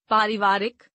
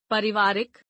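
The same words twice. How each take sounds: First: Said in the usual way. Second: पारिवारिक with short first vowel, "parivaarik"; mispronounced. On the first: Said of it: "शुद्ध". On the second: Shown as a demonstration. Teacher showing a vowel error, mispronounced with short first a. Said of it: "अशुद्ध".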